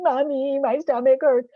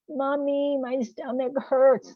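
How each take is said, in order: First: Put-on high, louder whiny kid wail; a child wailing for mommy, voice pitched up high; six-year-old impersonation. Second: Put-on high, whiny little kid complaining; a small child whining to mom that her tummy hurts; six-year-old impersonation. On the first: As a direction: play it as a sick little kid crying to mom. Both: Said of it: "That's my six-year-old impersonation".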